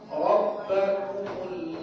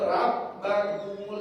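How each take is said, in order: First: The r sound is thick and rounded. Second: The r sound is thin and light. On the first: The speaker calls it right. "bulat karena di baris atas fathah" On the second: The speaker calls it wrong. "jangan dibaca"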